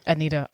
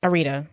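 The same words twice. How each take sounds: First: "Anita" with an n in the middle; n, not r, in "Anita"; mistaken name pronunciation. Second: "Arita" with an r in the middle; r, not n, in "Arita"; corrected name pronunciation. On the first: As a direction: say "Anita" as uh-NEE-tuh. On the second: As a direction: say "Arita" as uh-REE-tuh. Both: Real, not acted. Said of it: "What did I say?".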